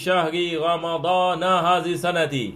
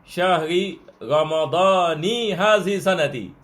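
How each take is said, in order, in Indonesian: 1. Ramadan berakhir dengan vokal a. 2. Ramadan berakhir dengan vokal i. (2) "Sebab dia mudhaf dengan mudhaf ilaih... dia mengambil kasrah"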